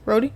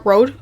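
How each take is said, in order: First: "Roadie" as two syllables; pronounced Roadie. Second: "Road" as one syllable, silent E; pronounced Road. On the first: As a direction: say "Roadie" with an ee ending. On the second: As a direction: say "Road" to rhyme with code. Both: Shown as a demonstration. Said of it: "how to pronounce it".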